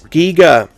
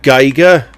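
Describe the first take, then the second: First: The first syllable has the 'ee' vowel. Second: The first syllable has the 'eye' vowel. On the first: The speaker calls it right. "It's Giger. ... his nickname was Eager Giger, because it rhymed" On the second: The speaker calls it wrong. "not Geiger, as various people have been saying"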